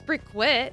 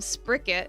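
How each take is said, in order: First: The Q is said as a KW sound. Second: The Q is said as a plain K sound. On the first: The speaker calls it wrong. "I don't think it's Sprickquit" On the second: The speaker calls it right. "Q's are usually pronounced like K's, so that's why I'm saying Spricket"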